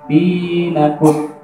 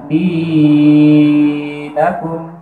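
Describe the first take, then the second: First: The long vowel is held for two counts. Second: The long vowel is stretched out too far. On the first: The speaker calls it right. "harusnya dinakum" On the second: The speaker calls it wrong. "tidak boleh kepanjangan. Misalnya dinakum, jadi kurang tepat"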